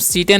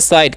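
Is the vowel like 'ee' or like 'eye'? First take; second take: ee; eye. First: The vowel is 'ee' and the final e sounds. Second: The vowel is 'eye' and the final e is silent. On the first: The speaker calls it wrong. "इसे हम सीटे नहीं" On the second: The speaker calls it right. "इसे हम लोग पढ़ते हैं साइट"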